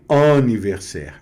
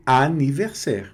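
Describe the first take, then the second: First: Anniversaire with a nasal ann, like ân; wrong nasal anniversaire. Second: Anniversaire with a clear open a, no nasal; correct anniversaire. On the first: Teacher showing students the wrong nasal anniversaire. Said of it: "não é anniversaire". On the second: Teacher giving students the correct anniversaire, open a. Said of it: "é anniversaire". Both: Shown as a demonstration.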